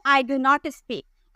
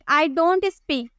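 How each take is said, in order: First: Do and not are said as two full words. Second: Do and not are merged into one syllable.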